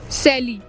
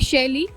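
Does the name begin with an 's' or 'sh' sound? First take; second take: s; sh. First: The name begins with an 's' sound. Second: The name begins with a 'sh' sound. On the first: This is how local people say it. The speaker calls it wrong. "यहाँ के लोग बोलते हैं सैली" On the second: This is the name's proper form. The speaker calls it right. "मेरा नाम है शैली"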